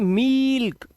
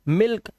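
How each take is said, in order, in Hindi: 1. स्वर लंबा है और खींचकर बोला जाता है। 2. स्वर छोटा है और जल्दी बोला जाता है। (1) "ये गलत हो जाएगा" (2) "इसको जल्दी बोलना है"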